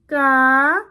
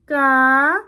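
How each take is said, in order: First: The syllable is said on a high tone. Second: The syllable is said on a high tone.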